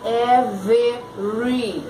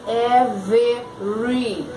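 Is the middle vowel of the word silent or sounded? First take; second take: sounded; sounded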